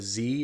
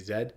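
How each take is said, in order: First: The letter is said as 'zee'. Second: The letter is said as 'zed'.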